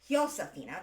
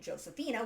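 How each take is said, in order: First: The name begins with an H sound. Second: The name begins with an English J sound. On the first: The speaker calls it right. "Spanish doesn't pronounce J. It's pronounced as an H" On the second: The speaker calls it wrong. "I keep pronouncing it Josephina, which is the European, or rather the English form of this"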